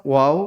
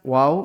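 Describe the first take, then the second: The two takes are said the same way.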